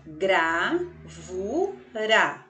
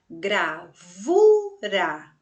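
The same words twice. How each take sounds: First: "gravura" very slowly split into gra, vu, ra; syllable by syllable. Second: "gravura" split slowly, with VU loud and long; stress on VU. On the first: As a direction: say "gravura" in three even, separate syllables. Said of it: "Então, tem três sílabas". ("gravura" bem devagar: gra, vu, ra) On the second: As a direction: punch the middle syllable of "gravura": gra-VU-ra. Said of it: "eu vou dizer uma sílaba mais forte". ("gravura" com o VU mais forte) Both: Shown as a demonstration.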